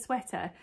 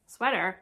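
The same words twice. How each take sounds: First: Said in the usual way. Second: Badly faked American "sweater"; terrible American accent. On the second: Shown as a demonstration. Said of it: "that's the Maryland's terrible accent".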